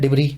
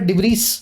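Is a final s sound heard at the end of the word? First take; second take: no; yes. First: The final s sound is silent. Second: The final s sound is pronounced. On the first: This is how the word is spoken. The speaker calls it right. "पीछे का एस इस word में pronounce नहीं किया जाता, बोला जाता है डिब्री" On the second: This is how the word is written. The speaker calls it wrong. "लिखा हुआ है डिब्रीस"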